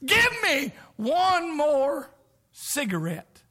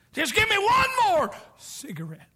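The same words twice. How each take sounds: First: Slow high strained plea; dying man's plea. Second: High pleading voice, stretched out; dying man's plea. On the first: Dying man on death's door begging, slow strained plea. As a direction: mimic a dying smoker begging. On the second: Dying man begging for a last cigarette, high plea. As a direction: beg for it in a high voice. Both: Retold or imitated. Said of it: "say something like this".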